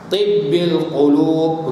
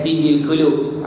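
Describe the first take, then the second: First: The b sound is held long and doubled. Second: The b sound is short and single. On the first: The speaker calls it right. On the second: The speaker calls it wrong.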